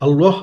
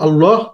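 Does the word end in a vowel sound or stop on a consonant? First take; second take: consonant; consonant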